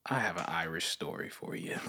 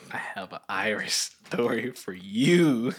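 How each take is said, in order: First: Said in the usual way. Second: Slow, stretched-out repeat of the line; drawn-out announcement. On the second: Pretend. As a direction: draw out every word, especially YOU. Same line repeated as story announcement.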